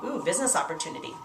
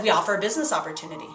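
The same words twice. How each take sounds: First: Soft, quick, interested "Ooh, business opportunity"; softer, quietly intrigued inner voice; intrigued inner thought. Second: Said in the usual way. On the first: Retold or imitated. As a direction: murmur it like a guest whose interest is caught. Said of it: "So they start thinking". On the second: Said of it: "And I just said".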